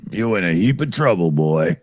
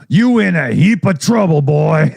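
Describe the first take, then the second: First: Low, quick Southern sheriff drawl. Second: Lazy Southern sheriff drawl, a bit louder. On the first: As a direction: mutter the line like a Southern lawman, lower. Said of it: "What's that from again?". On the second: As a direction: drawl it like a Southern lawman warning a boy. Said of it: "I said it in that southern drawl kind of thing". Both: Retold or imitated.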